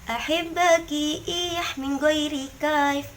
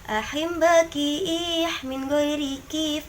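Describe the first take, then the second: First: The last word is said 'kaif', with a diphthong. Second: The last word is said 'kif', with a plain 'i'. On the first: The speaker calls it right. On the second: The speaker calls it wrong.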